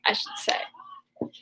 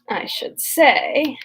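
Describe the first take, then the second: First: Breathy whispered self-correction; whispered afterthought; whispered aside. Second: Said in the usual way. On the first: Shown as a demonstration. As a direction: murmur it under your breath.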